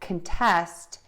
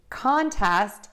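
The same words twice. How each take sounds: First: The stress is on the second syllable. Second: The stress is on the first syllable. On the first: It is a verb meaning to argue. "to argue" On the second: It is a noun meaning a competition. "which is a match or competition"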